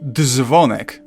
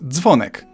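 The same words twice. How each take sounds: First: The d and z are said as separate sounds. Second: The d and z merge into one sound. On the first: The speaker calls it wrong. "It's not dzwonek" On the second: The speaker calls it right. "but dzwonek"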